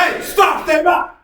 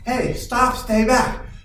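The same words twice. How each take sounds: First: It is said loudly, with strong force. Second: It is said softly, with little force. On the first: The attacker will respond differently. The speaker calls it right. "there's a huge difference in just the tone and the volume" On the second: The attacker will not take it seriously. The speaker calls it wrong. "they're not going to take me seriously"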